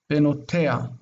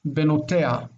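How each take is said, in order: First: The h sound before the last vowel is dropped. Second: The h sound before the last vowel is dropped.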